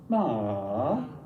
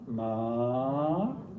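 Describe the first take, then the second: First: The pitch dips low then comes back up. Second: The pitch rises from middle to high. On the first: "a dipping tone" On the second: "a rising tone"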